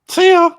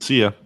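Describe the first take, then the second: First: It is said in a Mickey Mouse voice. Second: It is said in his normal voice.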